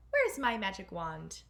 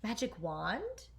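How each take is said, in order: First: Said in the usual way. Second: Slow, breathy astonished question rising at the end; amazed gasp with a rising end. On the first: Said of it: "You can't go to the ball". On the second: A narrator's reading. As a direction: catch your breath at the words. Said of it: "gasped Cinderella".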